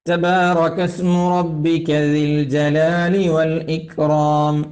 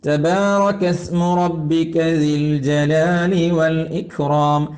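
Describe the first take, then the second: No difference in how they are said.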